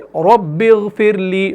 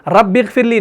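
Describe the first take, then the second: First: The r sound is heavy and full-mouthed. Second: The r sound is thin and light. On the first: The speaker calls it right. "बल्कि रब्बिगफिरली, मुंह भर के इसको पढ़ना है" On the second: The speaker calls it wrong. "रब्बिगफिरली नहीं"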